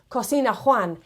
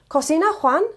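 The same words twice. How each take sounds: First: The voice does not rise at the end. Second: The voice rises at the end.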